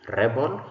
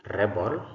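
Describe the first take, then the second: The two takes are said the same way.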